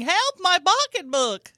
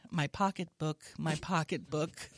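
First: High, loud, drawn-out cry for help; mock scream. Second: Screaming reported with no raised voice; deadpan mock scream. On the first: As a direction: scream it like a hammed-up robbery victim. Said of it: "I fall to the ground screaming". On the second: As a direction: recite the victim's cry like an official statement.

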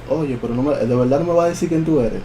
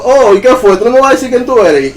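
First: Softer retold questioning; talking like this. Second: High, raised-voice retold challenge; calling out. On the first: Dreamer questions the hiding shadow, in a hushed voice. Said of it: "Le empecé a hablar así". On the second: Dreamer calls after the fleeing spirit, high and insistent. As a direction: call after someone fleeing, pitched well up. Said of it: "empecé a llamarlo".

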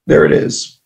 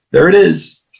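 First: Breathed repeat, almost no voice; whispered echo. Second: Sudden realization, a bit higher; realizing it. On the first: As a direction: whisper it to yourself. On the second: To himself on hearing his dad is dying, dawning realization. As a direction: land it like you finally get it. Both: Retold or imitated. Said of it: "I was like".

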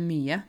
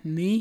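First: Said in the usual way. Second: MY as one syllable, no final e; dialect short form. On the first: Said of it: "Ikke mye". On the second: Shown as a demonstration. Teacher contrasting with standard, dialect one-syllable MY. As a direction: clip MYE down to MY in dialect. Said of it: "det der med my".

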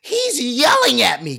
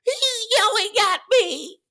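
First: Loud, high, drawn-out accusation; mock complainer. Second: Very high, slow squealed whine; mock Karen. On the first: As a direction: complain loudly, dragging it out in mockery. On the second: One Karen complaining about the speech, very high mock wail. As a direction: squeal it like a hammed-up outraged complainer. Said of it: "you just got this one Karen".

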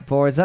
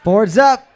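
First: Said in the usual way. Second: Loud quizmaster call. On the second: Real, not acted. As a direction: call time to the teams, loudly. Host calls time to teams.

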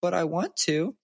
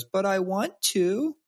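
First: Put-on high whining little girl; whiny toddler. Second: Put-on high, slow whining child voice; imitating a pouting daughter; whiny toddler. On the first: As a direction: plead like a toddler denied the park. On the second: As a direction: whine it like a pouting three-year-old. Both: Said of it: "She goes".

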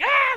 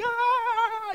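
First: High short hammed-up scream; mock panicked shriek. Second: High loud panicked shout; hammed-up terrified shout; mock panicked yell. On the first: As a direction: scream like a startled disciple. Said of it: "They're not just like". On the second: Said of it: "They're like".

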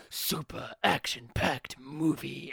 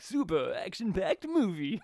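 First: Slow, gravelly eighties trailer narrator; smoky trailer voice. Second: Rising VHS rental trailer read. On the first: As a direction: drag it out like a smoker's trailer voice. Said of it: "the cigarette smoking voice". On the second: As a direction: pitch it like an old VHS ad. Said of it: "you went for the V H S rental trailers". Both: Retold or imitated.

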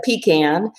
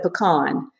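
First: Pecan said PEE-can, the South Georgia way; pecan pronounced "PEE-can"; dad's PEE-can. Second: Pecan said puh-KAHN, the Atlanta way; pecan pronounced "puh-KAHN"; mom's puh-KAHN. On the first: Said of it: "my dad was from South Georgia". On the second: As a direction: stress the second syllable of pecan, with an "ah". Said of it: "Atlanta, and she said pecan". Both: Retold or imitated.

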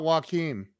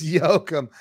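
First: Joachim said as wah-KEEM; Americanized pronunciation. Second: Joachim repeated slowly as YO-kum; corrected Danish pronunciation. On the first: Host checks the name with guest, Americanized Joachim as wah-KEEM. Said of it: "It's not Joachim". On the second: Host repeats guest's correction, Danish pronunciation of Joachim. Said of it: "No, it's Joachim". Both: Shown as a demonstration.

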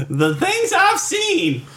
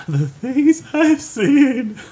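First: Dramatic high voice. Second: High, very slow, through laughter; drawn-out laughing falsetto. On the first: Mock weary bra lament. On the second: Repeated, slower and laughing. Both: Acted.

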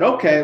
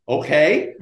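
First: OKAY said with a falling end; settling it. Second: OKAY turned into a question, rising at the end; unsure. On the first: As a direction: close the deal with a falling "okay". Cop settles it with the super. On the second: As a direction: answer with a tentative rising "okay". Super answers, unsure of his luck. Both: Retold or imitated.

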